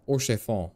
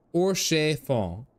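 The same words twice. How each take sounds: First: Said in the usual way. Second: "Or chiffon" slow, drawn out and higher; deliberate pronunciation. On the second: Shown as a demonstration. Streamer finally getting the name, "Or chiffon" stretched out and raised. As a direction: stretch each syllable of "Or chiffon" with a flourish. Name repeated with flourish, then approved.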